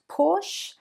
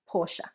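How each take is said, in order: First: The word is said with one syllable. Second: The word is said with two syllables. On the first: The speaker calls it wrong. "not Porsche" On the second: The speaker calls it right. "but two syllables"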